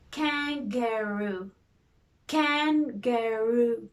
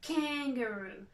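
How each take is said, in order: First: Kan-ga-roo drawn out slowly by syllable; slow syllable beats. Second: Said in the usual way. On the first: Shown as a demonstration. Teacher tapping kangaroo out with the hand, slowly. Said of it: "do it with the hand first". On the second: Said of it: "let's try it".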